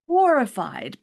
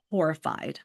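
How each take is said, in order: First: Horrified said higher and louder; horrified stressed hard the second time; emphatic repeat. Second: Said in the usual way. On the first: Shown as a demonstration. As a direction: punch the repeated word horrified.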